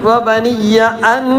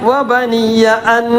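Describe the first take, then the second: The two takes are said the same way.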